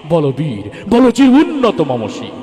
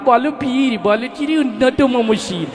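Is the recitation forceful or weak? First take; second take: forceful; weak. First: It is recited forcefully, in a man's manner. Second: It is recited weakly, imitating a woman.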